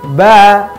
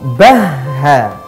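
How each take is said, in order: First: The h is said once without pressure. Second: The h is pressed and doubled. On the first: The speaker calls it wrong. "Tidak ba" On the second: The speaker calls it right. "tapi bahha. Ditekan"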